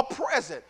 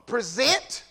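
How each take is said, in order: First: "present" as PREZ-ent, the noun; stress on first syllable. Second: "present" drawn out as pre-ZENT; slowly weight the end of "present", as the verb; stress on second syllable. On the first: Preacher naming the gift-like word, "present" stressed PREZ-ent. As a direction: put the weight on the opening of "present". Repeats noun against verb. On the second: Preacher teaching the verb once more, "present" stressed pre-ZENT. Repeats verb against noun. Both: Shown as a demonstration.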